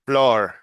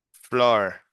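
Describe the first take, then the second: First: Flor said louder with a tapped Spanish r; Flor, the r short and flicked; careful Spanish r. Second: Flor with a tapped r, calmer; repeated model. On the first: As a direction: Flor said for the class to copy. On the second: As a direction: Flor again for practice. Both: Shown as a demonstration. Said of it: "here I go one more time".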